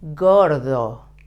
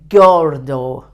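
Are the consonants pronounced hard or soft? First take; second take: soft; hard. First: The consonants are pronounced softly and gently. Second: The consonants are pronounced hard and explosive. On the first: The speaker calls it right. "The the G soft. The R soft. The D soft" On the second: The speaker calls it wrong. "not gordo"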